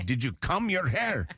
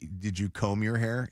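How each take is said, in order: First: It is said in an imitated foreign accent. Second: It is said in the speaker's ordinary accent. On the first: "my dad used to always have with his accent" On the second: "instead of saying"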